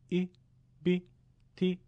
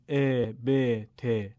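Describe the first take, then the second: First: The short vowel sounds close to 'ee'. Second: The short vowel sounds close to 'eh'. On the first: The speaker calls it right. "در لهجه عربی کسره میل به ای تلفظ میشه، میگیم" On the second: The speaker calls it wrong. "نمیگیم ... یعنی نباید با لهجه فارسی بخونیم"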